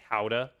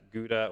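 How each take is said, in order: First: It is pronounced the traditional way. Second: It is pronounced the everyday American way. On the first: "a more traditionally, it would be Gouda" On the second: "colloquially everybody just calls it Gouda here"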